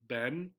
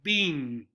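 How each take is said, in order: First: The vowel is a short e, like 'Ben'. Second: The vowel is a long e, like 'bean'. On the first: "the correct or the standard pronunciation of Ben. Sounds just like this" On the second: "they make the two E's a long E sound, so it sounds like bean"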